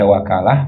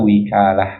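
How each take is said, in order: First: The first vowel is an open 'a'. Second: The first vowel is a high 'i'. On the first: The speaker calls it right. "bi fathil wawi" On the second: The speaker calls it wrong. "wa kasriha"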